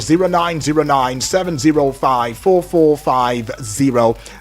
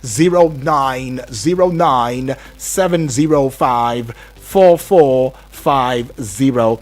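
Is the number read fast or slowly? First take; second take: fast; slowly. First: The number is read fast. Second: The number is read slowly.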